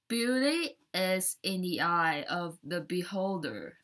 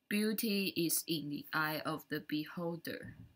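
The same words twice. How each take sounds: First: It is said with a native-like English accent. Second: It is said with a Taiwanese Mandarin accent.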